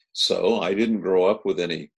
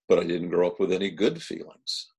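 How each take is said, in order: First: Didn't pressed firmly, then falling; stress on didn't. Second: The word good lifted and held as the contrast; stress on good. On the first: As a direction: lean on "didn't" as the point. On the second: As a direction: make "good" the word that answers the line before. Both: Shown as a demonstration.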